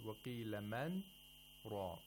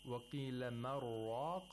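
First: A brief breathless stop comes after man. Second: Man and raq run together with no stop. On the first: The speaker calls it right. "we say" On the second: The speaker calls it wrong. "instead of saying"

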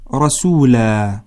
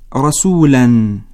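First: The word ends on a long a without n. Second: The word ends with a final -an sound. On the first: Reading stops at this word. "وتقرأ عند الوقف رسولا" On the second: Reading continues into the next word. "تنوين فتحة، هكذا تقرأ عند الوصل"

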